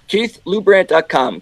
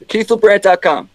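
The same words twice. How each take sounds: First: It is said slowly. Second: It is said at normal speed.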